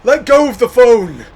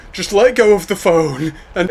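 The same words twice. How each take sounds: First: High, loud urgent shout. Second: High, loud urging; urgent. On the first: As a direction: shout the order over the storm. Yelling at boy in storm. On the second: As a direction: press him to let go. Urging boy in storm. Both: Acted.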